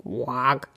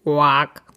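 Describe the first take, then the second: First: A small, quieter croak, voice changed; soft frog quack. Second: A croaky frog's call at the door; frog quack. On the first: Frog trying again at the mitten, soft quack. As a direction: mutter a little quack like a frog. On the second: Frog asking the mouse for room, a light quack. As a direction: announce yourself like a frog. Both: A narrator's reading. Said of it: "Der steckte ebenfalls seinen Kopf".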